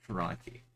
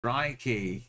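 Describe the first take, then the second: First: Said in the usual way. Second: Higher-pitched, punchy exclamation; exclaimed. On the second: Real, not acted. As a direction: call it out, pitch up then falling. Exclaims during geography game.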